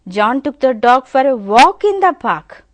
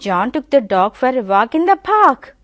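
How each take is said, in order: First: The stress falls on the word walk. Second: The stress falls on the word park. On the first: It was a walk he took it for. "if you give a stress on walk" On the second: It was the park where they walked. "The stress is on park"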